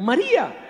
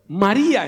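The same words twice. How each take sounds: First: A knowing, familiar "María", a bit higher; intimate call by name. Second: Said in the usual way. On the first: Retold or imitated. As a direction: say the name like an old friend would. ("María" dicho con tono familiar e íntimo) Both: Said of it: "en el tono que se conocerían".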